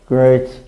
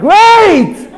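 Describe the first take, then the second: First: It is said flatly, without enthusiasm. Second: It is said with enthusiasm.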